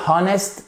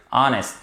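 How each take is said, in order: First: "honest" said with the H sounded; wrong pronunciation. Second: "honest" with a silent h, starting on the vowel; correct pronunciation. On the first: Teacher shows students the mistaken pronunciation. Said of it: "ça ne marche pas". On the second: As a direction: drop the h: "honest" begins on a short o. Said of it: "le H ne se prononce pas". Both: Shown as a demonstration.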